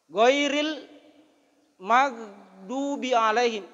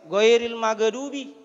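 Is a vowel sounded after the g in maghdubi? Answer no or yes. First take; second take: no; yes. First: No vowel is sounded after the g. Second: An extra vowel is sounded after the g. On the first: The speaker calls it right. "padahal itahang ikoro goiril magdubi" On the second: The speaker calls it wrong. "na yaro ga tania huruf kala-kala"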